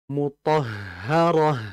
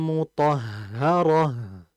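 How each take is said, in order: The two takes are said the same way.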